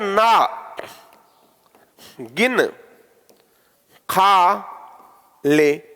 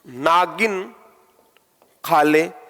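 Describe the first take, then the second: First: There is a short break after the syllable na. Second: The first word is said as one unbroken word. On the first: Eat as much as you like without counting. "इसका मतलब गिनना नहीं है" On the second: A female snake is told to eat. "इसका अर्थ अलग हो गया खा ले"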